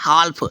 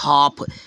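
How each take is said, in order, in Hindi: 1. इस शब्द में L की आवाज़ बोली जाती है। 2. इस शब्द में L की आवाज़ छोड़ दी जाती है। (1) "जैसे कोई पढ़ता है हाल्फ, बट हाल्फ नहीं" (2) "इसको पढ़ेंगे हाफ"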